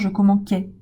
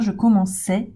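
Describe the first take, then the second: First: The middle consonant is a hard k sound. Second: The middle consonant is a soft s sound. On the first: The speaker calls it wrong. "pour éviter d'avoir" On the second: The speaker calls it right. "avec un son se"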